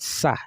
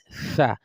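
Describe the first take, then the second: First: The syllable starts with an s sound. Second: The syllable starts with a th sound. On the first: The speaker calls it wrong. "So it's not sa" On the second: The speaker calls it right. "it is fa"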